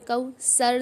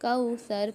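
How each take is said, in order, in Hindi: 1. बीच का व्यंजन 's' जैसी फुफकार वाली आवाज़ है। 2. बीच का व्यंजन नरम 'th' जैसी आवाज़ है। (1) "कौसर नहीं पढ़ें हम इसको" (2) "यहाँ पर कौसर पढ़ें"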